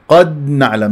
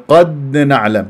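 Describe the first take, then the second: The two takes are said the same way.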